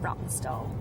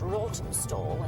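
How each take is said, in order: First: The first syllable does not sound like 'raw'. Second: The first syllable sounds like 'raw'. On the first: This is how the locals say it. "But locals pronounce it Rottenstall" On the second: This is the pronunciation the spelling suggests. "It should be pronounced Rottenstall. It's R A W T E N"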